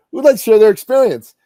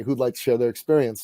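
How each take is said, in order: First: Loud, high call to the room. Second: Said in the usual way. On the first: Acted. Host asking workshop audience to share, calling out. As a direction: throw the question out to a crowd.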